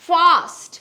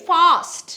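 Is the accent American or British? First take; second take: British; British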